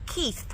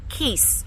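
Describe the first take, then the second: First: The name ends with a th sound. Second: The name ends with an s sound. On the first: The speaker calls it wrong. "not Keith" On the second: The speaker calls it right. "Keese, like how you say Marquise"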